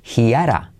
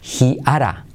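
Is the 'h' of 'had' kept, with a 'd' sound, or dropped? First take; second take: dropped; dropped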